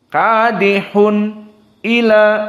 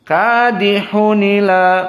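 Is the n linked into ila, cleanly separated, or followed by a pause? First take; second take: separated; linked. First: The n is clear, then a glottal stop begins ila. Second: The n runs straight into ila without a glottal stop. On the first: "dibaca dalam keadaan idhar seperti Hafs an Asim" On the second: "naql kepada nun sakinah"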